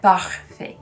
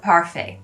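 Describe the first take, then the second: First: It is said with a French accent. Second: It is said with an English-style accent.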